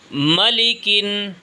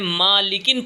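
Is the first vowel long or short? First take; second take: short; long. First: The first vowel is said quickly and short. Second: The first vowel is drawn out long. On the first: The speaker calls it right. "मीम को जल्दी पढ़ना है।" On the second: The speaker calls it wrong. "इसमें हम गलती ये करते हैं, मालिकिन पढ़ देते हैं।"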